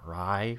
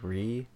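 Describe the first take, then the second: First: The vowel sounds like the one in 'writing'. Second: The vowel sounds like the one in 'see'. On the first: "is it like writing" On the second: "Re sounds better"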